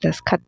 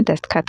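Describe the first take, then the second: First: दस्तखत said as "daskhat"; "das-khat" for दस्तखत; wrong pronunciation. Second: दस्तखत said as "dastkhat"; "dast-khat" for दस्तखत; correct pronunciation. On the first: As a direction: drop the middle t from दस्तखत. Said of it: "तो होता ही नहीं है". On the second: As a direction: sound the middle t in दस्तखत. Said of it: "होता है". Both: Shown as a demonstration.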